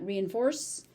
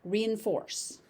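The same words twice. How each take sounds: First: The middle syllable is shortened. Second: The middle syllable is said in full.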